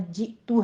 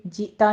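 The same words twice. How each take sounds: First: جئتو said ending in u; correct pronunciation. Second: جئتا said ending in a; wrong pronunciation. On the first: Teacher correcting students, جئتو. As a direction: end جئتو on a u sound. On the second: Teacher showing students the mistake, جئتا. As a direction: end جئتا on an a as the error. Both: Shown as a demonstration. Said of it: "جئتا نہیں کہنا".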